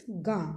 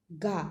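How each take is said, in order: First: गां with a nasalised long aa; nasal vowel. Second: गा with a plain open vowel, not nasalised; no nasal. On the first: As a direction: let the aa in गां ring through the nose. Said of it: "अगर बिंदी होगी तो इसको हम बोलेंगे". (बिंदी वाला नाक से गां) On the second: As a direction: say गा clean, with no nasal sound. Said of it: "इसको हम क्या बोलेंगे". (बिना बिंदी के साफ़ गा) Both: Shown as a demonstration.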